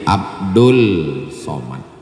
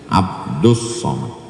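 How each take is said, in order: First: An L sound comes before Somad. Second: An S sound comes before Somad. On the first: The speaker calls it wrong. "Salah tulis di rapor, jadi Abdul Somad" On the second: The speaker calls it right. "cara yang benar adalah Abdus Somad, idgham syamsiyah"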